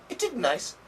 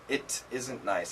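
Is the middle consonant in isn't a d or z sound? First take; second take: d; z. First: Isn't is said with a d sound. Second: Isn't is said with a z sound. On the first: "they do change it to a D" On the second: "It's much better to say it isn't"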